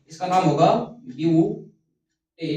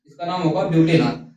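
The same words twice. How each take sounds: First: Slow, drawn-out naming of butanol; deliberate teacher dictation, slowed down. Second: Said in the usual way. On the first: Shown as a demonstration. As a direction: stretch out इसका नाम होगा butanol for students to write.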